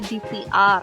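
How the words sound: The letters are said with English letter names. The speaker calls it wrong. "ke Inggris-Inggrisan ya"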